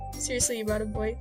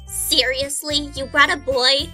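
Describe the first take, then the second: First: It is said in a plain reading voice. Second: It is said in an uptight, younger character voice.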